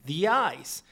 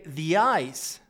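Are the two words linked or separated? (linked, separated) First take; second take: linked; linked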